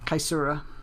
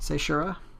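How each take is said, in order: First: The name begins with a hard K sound. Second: The name begins with a soft S sound. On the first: The speaker calls it right. "I would say Kaisura" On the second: The speaker calls it wrong. "I wouldn't say it that way"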